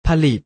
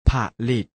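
First: Said in the usual way. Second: ผะ, short pause, ลิต; syllable by syllable. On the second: Shown as a demonstration. Teacher showing pupils the reading, ผะ-ลิต in separated syllables. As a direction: split ผะลิต into two separate syllables. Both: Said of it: "อ่านว่า".

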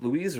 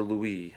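First: Louise with a final z sound; trying a pronunciation. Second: Louis with a silent s; trying a pronunciation. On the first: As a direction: say Louise as loo-EEZ. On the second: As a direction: say Louis as loo-EE. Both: Shown as a demonstration. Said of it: "what's the best way to pronounce that".

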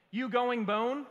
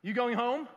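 First: "bone" said loud and plainly in place of home; misspelt word read out. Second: "home" said clearly, loud, as a question; corrected word. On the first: Pastor reads his text to son, "bone" pronounced as typed. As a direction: read the typo "bone" straight, as a raised question. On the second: Pastor reads corrected text to son, "home" pronounced clearly. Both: Retold or imitated. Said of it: "And then I corrected it".

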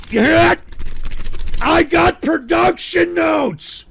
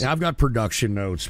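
First: High, loud, slow yell; yelled outburst. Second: Said in the usual way. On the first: Real, not acted. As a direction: blast it out in mock fury. Exploding at chat's request.

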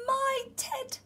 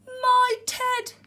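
First: High cry at normal volume; small, high voice of a child spotting a lost toy; amazed exclamation. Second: Loud, high cry of astonishment; big, high storybook outburst; gasped exclamation. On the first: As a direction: exclaim it high, without shouting. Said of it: "said Eddie". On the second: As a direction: exclaim it as a startled story bear. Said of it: "gasped the bear". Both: A narrator's reading.

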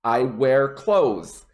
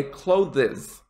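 First: Slow, one-syllable clothes like close; correct clothes. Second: Clothes in two syllables, clo-thez; wrong clothes. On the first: Teacher modelling clothes rhymed with close. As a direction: say clothes as klohz. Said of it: "Say it the exact same way as close". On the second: Teacher showing the students' two-syllable clothes. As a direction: say clothes as clo-thiz with a sounded TH. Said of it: "Don't worry about it being two syllables". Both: Shown as a demonstration.

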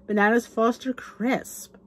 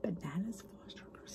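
First: Said in the usual way. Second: Very soft, savoring whisper; awed whisper. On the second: Real, not acted. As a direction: whisper the dessert to yourself, relishing it. Repeats dish in awe.

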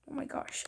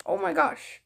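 First: Breathy whispered oh my gosh; whispered gasp. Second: Higher, louder oh my gosh; surprised. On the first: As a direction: whisper it in awe. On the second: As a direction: burst out in amazement. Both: Real, not acted. Reacting to game scene.

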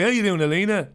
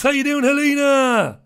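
First: Said in the usual way. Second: Big hello. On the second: Real, not acted.

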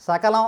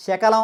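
First: సకలం begun with a dental "s". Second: శకలం begun with a palatal "sh". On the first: Teacher gives the original word, సకలం with a dental "s". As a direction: start సకలం with the tongue near the upper teeth. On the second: Teacher gives the substituted word, శకలం with a palatal "sh". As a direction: start శకలం with the tongue middle raised, "sh". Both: Shown as a demonstration. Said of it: "సా బదులు శ వాడితే".

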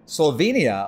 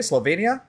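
First: "Slovenia" with the ee vowel, slo-VEE-nia; "Slovenia" spoken slo-VEE-nia, plain fall. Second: "Slovenia" with the ay vowel, slo-VAY-nia, rising; "Slovenia" tried out as slo-VAY-nia, questioning rise. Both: Shown as a demonstration. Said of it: "Is that how you say it?".

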